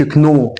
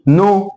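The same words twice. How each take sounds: First: كنو with the k sounded before n; K wrongly voiced. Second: نو starting straight on n; silent K. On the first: Teacher showing what not to say, K sounded. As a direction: pronounce the k in كنو. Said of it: "فما اقولش كنو". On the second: Teacher correcting the word for students, silent K. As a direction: say نو with no k at all. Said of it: "الكي دي سايلنت". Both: Shown as a demonstration.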